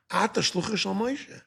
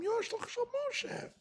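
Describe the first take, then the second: First: A touch of mock scorn, slightly raised; half-acted put-down from the angel of death; mild mocking retort; lightly mocking angel. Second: Much higher, squeaky scornful jab; mock the messenger of Moshe in a high sneer; taunting falsetto-like put-down. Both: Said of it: "I'm adding a little bit of inflection".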